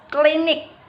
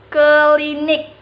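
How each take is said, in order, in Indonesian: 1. Dua konsonan pertama membentuk gugus konsonan. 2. Bunyi e memisahkan dua konsonan pertama. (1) "Seperti klinik" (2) "sering diucapkan klinik"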